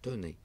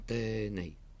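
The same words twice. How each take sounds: First: The first e is said as a plain vowel. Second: The first e is said as an accented vowel. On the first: The speaker calls it right. "Donc sans accent" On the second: The speaker calls it wrong. "on ne peut pas dire tenez"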